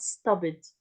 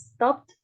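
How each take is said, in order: First: The -ed ending does not sound like t. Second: The -ed ending sounds like a plain t. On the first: The speaker calls it wrong. "not stopped" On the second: The speaker calls it right. "We pronounce it as stopped, ed pronounced as t"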